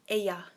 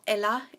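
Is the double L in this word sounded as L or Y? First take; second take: Y; L. First: The double L is sounded like a Y. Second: The double L is sounded like an L. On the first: The speaker calls it right. "the L's are like are pronounced as a Y" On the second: The speaker calls it wrong. "not ella"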